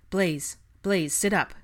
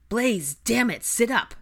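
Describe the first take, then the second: First: Raised, firm voice; instructing. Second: Loud, high exasperated command; frustrated order. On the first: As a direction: rouse him with a firm instruction. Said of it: "Draco instructed". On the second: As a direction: lose patience trying to rouse him. Frustrated second order to sick friend. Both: A narrator's reading.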